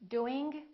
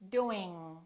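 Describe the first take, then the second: First: The final g sound is audibly released. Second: The final g sound is held, not released. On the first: The speaker calls it wrong. "The first two are not correct" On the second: The speaker calls it right. "The last way is the correct accent"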